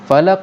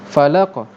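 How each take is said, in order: First: The word ends with a hard k-like stop. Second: The word ends with a light bouncing release. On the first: The speaker calls it wrong. "kalau dah sampai ada k, salah" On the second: The speaker calls it right. "Macam mana bunyi dia yang yang betul?"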